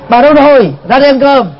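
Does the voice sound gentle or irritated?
irritated. It is said sharply and irritably. The speaker is annoyed and the kindness is gone. "đang cáo gắt á, ông ấy phát biểu như thế này"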